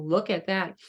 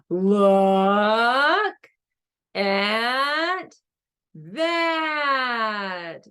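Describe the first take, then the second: First: It is said at normal volume and length. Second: It is said loudly and drawn out.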